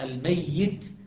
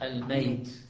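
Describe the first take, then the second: First: The y sound is doubled, held long. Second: The y sound is single, not held.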